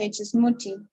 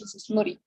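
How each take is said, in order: First: It is said in a British accent. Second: It is said in an American accent.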